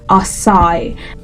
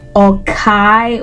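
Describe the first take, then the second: First: The middle consonant is an s sound. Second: The middle consonant is a k sound. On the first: The speaker calls it right. "but no, it's Asai" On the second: The speaker calls it wrong. "people wrongly pronounce it as Okai"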